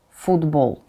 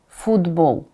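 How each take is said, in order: Both takes have the same delivery.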